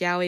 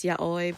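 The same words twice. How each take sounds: First: Yaoi said as YOW-ee, two syllables; mispronounced yaoi. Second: Yaoi said as YAH-oy, ending in "oy"; corrected yaoi. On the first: Admitting the lazy pronunciation, yaoi mispronounced as YOW-ee. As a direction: say yaoi like "yowie". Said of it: "I know it's not pronounced yaoi". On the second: Giving listeners the proper form, yaoi said YAH-oy. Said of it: "it's yaoi". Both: Shown as a demonstration.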